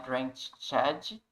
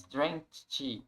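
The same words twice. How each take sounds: First: "drenched" as "drench-edi", extra syllable; mispronounced drenched. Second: Slow "drenched", ending in a T sound. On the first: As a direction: voice an added "ed" on "drenched". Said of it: "Então não é". ("drenched" errado, com sílaba "édi" a mais) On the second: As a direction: end "drenched" on "cht", no "ed" syllable. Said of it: "com T". ("drenched" com som de T, devagar) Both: Shown as a demonstration.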